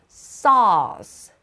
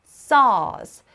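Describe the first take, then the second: Both takes have the same delivery.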